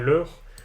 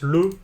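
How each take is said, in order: First: The word ends with an R sound. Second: The word ends without an R sound. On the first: This is the standard Parisian-region pronunciation. "et pas leur" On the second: This is the Ch'ti regional pronunciation. "Renault prononce le et pas leur, parce que dans sa variante du ch'ti, il prononce sans le R"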